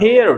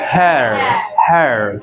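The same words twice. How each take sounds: First: "hair" as hey-yar; wrong, Indianised pronunciation. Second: "hair" with open e into schwa, low and falling; correct English pronunciation. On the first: Teacher shows the mistaken form, wrong pronunciation. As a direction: break "hair" with a y glide. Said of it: "that's not hair". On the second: Teacher models it for repetition, correct pronunciation. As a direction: draw "hair" down on one open vowel. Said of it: "but that's not hair". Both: Shown as a demonstration.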